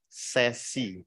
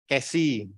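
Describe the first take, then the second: First: The word begins with an s sound. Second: The word begins with a k sound. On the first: "karena ini adalah dari bahasa Belanda, menurut beliau itu disebutnya adalah sesi" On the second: "Ada yang menyebut sesi, kesi"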